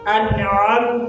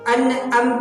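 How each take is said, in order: First: The middle consonant is a tight throaty ain. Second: The middle consonant is a plain glottal stop. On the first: The speaker calls it right. "इसको हम आइन पढ़ेंगे" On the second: The speaker calls it wrong. "अनअमत पढ़ेंगे तो ये हमजा बन जाएगा"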